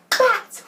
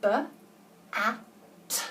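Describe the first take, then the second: First: Said in the usual way. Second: B-A-T said as separate letter sounds; sounded out. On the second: Shown as a demonstration. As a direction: sound out B-A-T slowly. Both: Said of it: "How would you sound out the word bat?".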